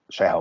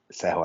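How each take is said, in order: First: The word begins with an 'sh' sound. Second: The word begins with an 's' sound. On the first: The speaker calls it wrong. "Seha vagy Szeha" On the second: The speaker calls it right. "maradjunk inkább a szép kiejtéses fogalmazásnál"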